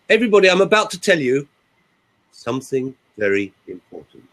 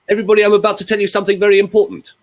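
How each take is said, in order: First: There are pauses before and after the phrase. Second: The phrase runs on without any pauses. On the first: The message carries weight and grabs attention. The speaker calls it right. "I did a pause before and after" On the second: The message loses all its power. The speaker calls it wrong. "let me show you the other version"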